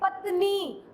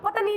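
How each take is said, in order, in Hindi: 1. शब्द धीरे और खींचकर बोला गया है। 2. शब्द जल्दी और झटके से बोला गया है। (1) "पूरी लंबा खींच के बोलना पड़ता है" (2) "उसकी साउंड हम स्पीड से बोल रहे"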